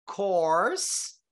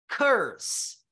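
First: "Course" with an open rounded o, rising at the end. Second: "curse" with a short er vowel, falling at the end. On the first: Teacher repeating "Course" so students hear it. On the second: Teacher repeating "curse" so students hear it. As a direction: clip "curse" with an er sound. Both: Shown as a demonstration. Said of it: "Perceberam a diferença?".

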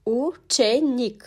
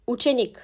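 First: "Učenik" slowly as U-če-nik; syllable-by-syllable pronunciation. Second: Said in the usual way. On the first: Shown as a demonstration. Teacher showing the letter U in "Učenik", slowly by syllables. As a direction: break "Učenik" into three separate syllables. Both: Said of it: "U harfi".

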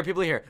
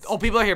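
First: Said in the usual way. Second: Sudden loud alarm; high startled cry. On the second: Real, not acted. Sudden alarm at other players.

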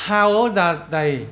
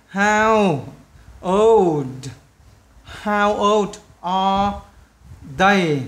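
First: Put-on "How old are they" joined slowly into one phrase; slow teacher's model of "How old are they", no gaps; linked words. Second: Put-on "How... old... are... they" split by pauses; slow dictation, a gap before "they"; word by word. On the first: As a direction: run "old" straight into "are", like "ol-da". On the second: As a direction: build up "How old are they" slowly in separate pieces. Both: Shown as a demonstration. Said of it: "Đọc nối chỗ này vào nhau".

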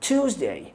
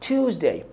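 The two takes are said the same way.

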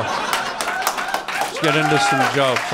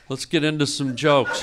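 First: Let's get into some jokes, dragged out long; slow, drawn-out announcement. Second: Said in the usual way. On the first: Shown as a demonstration. Comic telling the crowd, slowly drawn out. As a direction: stretch every word of it slowly. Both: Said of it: "Here we go".

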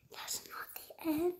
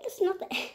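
First: Breathless whisper of disbelief; stunned hushed whisper; disbelieving whisper. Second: Said in the usual way. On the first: Real, not acted. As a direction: whisper it as if you can't believe it. Same words, now whispered.

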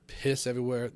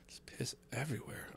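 First: Said in the usual way. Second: Hushed, no voice at all; whisper. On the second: Real, not acted. Whispering to podcast fans about the streets of Vegas. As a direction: whisper it like a gross secret.

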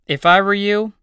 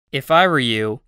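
First: "if I were you" with "I" higher and louder; stressed, emphatic. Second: Said in the usual way. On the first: Shown as a demonstration. Teacher giving emphatic advice to learners, stress on "I". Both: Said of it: "teacher models phrase twice".

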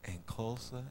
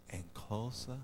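Both takes have the same delivery.

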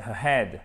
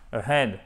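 First: AHEAD with a clearly breathed H. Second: AHEAD with the H left silent; AHEAD without H. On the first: Teacher showing the correct form, AHEAD with audible H. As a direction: sound the H in AHEAD after the schwa. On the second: Teacher showing what to avoid, AHEAD with dropped H. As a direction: drop the H in AHEAD, gliding into "ead". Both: Shown as a demonstration. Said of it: "vous me faites bien le H aussi".

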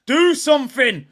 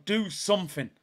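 First: Loud, higher repeat of the plea; demanding shout. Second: Said in the usual way. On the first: Real, not acted. Fan shouting at Zinchenko to do something. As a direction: yell it at him now.

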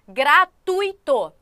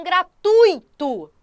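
First: Gratuito drawn out slowly with u and i split, gra-tu-i-to; wrong pronunciation. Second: Gratuito said with the diphthong, gra-tui-to, three syllables; gratuito, ui glided together, stress on tui; correct pronunciation. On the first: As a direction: say Gratuito stretched as four syllables, the wrong way. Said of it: "não se pronuncia como gratuito". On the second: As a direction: gratuito pronounced right as a diphthong. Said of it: "É um ditongo mesmo". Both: Shown as a demonstration.

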